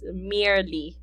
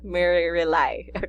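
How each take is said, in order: First: It is said smoothly as one word. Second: It is said as mere plus rely. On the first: The speaker calls it right. "the last word is merely" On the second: The speaker calls it wrong. "not mere rely"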